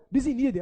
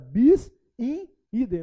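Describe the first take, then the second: First: The words are said quickly and run together. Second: The words are said as three separate words. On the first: "a turma fala rápido" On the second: "aprendi que não"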